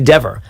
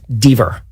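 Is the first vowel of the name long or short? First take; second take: short; long. First: The first vowel is short, like 'dev'. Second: The first vowel is long, like 'dee'. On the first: "D E V V E R would be" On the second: "a single consonant following a vowel is a hard vowel"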